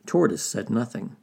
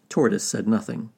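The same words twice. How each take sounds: The two takes are said the same way.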